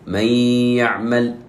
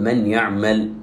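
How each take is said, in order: First: من يعمل with the nun merged into the ya and a nasal hum; nun held nasally into يعمل; merge with ghunna. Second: من يعمل with the nun said clearly; nun kept separate, not merged; wrong reading. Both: Shown as a demonstration. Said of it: "ولا نقول".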